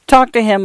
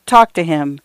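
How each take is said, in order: First: "Talk" said higher, leaning hard on the word, then falling; pleading stress. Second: Said in the usual way. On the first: A narrator's reading. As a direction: press on "Talk" with a higher pitch. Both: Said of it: "talk to her dead mother".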